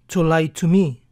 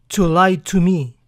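Both takes have the same delivery.

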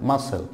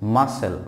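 First: The c is silent. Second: The c is silent.

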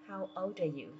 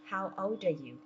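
First: The words run together quickly, old linking into are. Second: The same.

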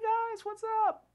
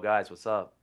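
First: The voice is high and squeaky. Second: The voice is low and deep. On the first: This is how the voice sounded in early high school. "I used to literally have like a pipsqueak voice" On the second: This is how the voice sounded after it changed. "All of a sudden, everything was different"

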